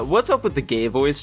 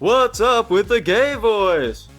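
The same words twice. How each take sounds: First: It is said in a plain, normal voice. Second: It is said in an imitated comedian's voice.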